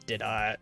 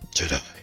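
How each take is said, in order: First: It is said in a normal voice. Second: It is said in a deep Batman voice.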